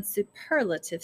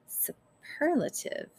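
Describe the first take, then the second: First: Said in the usual way. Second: Breathless slow Superlative, voiceless and savoring; thought to herself. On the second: A narrator's reading. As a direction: Superlative whispered inwardly, drawn out slowly. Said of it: "Early thought".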